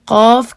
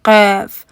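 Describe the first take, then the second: First: The vowel sounds like an open 'aa'. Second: The vowel sounds like 'ay', not open 'aa'. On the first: The speaker calls it right. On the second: The speaker calls it wrong.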